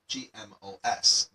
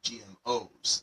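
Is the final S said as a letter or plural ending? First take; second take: letter; plural ending. First: The S is said as a separate letter. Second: The S is said as a plural ending. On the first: The speaker calls it wrong. "read it as G M O S. No, that would be wrong" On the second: The speaker calls it right. "It should be G M Os"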